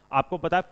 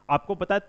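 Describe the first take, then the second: No difference in how they are said.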